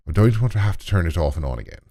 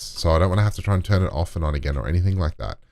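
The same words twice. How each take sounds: First: A hammed-up, clumsy Irish accent, a bit fast; bad Irish accent. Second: Said in the usual way. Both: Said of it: "that's a really bad Irish accent".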